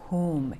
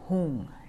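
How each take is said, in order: First: The word ends with an 'm' sound. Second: The word ends with an 'ng' sound. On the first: "Hum, H-U-M" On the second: "The Tibetans pronounce it Hung, H-U-N-G. Hung has a force to it"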